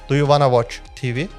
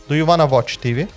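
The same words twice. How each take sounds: No difference in how they are said.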